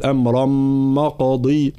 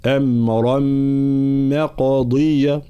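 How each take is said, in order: First: "مقضي" begun with a thick, dark ma; wrong heavy mim. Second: Slow chant, "مقضية" begun with a thin ma; light mim. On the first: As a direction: thicken the ma of "مقضي" after "أمرا". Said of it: "لا نقول". (تفخيم ميم "مقضي" خطأً) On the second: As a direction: keep the ma of "مقضية" light before the heavy qaf. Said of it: "لا، ما". (ترقيق ميم "مقضية") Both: Shown as a demonstration.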